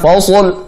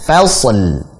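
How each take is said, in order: First: Every letter in the word sounds heavy. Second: Only the sad sounds heavy; the lam is light. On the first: The speaker calls it wrong. "tebal semua" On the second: The speaker calls it right. "sodnya tebal, fa-nya tipis, l-nya tipis"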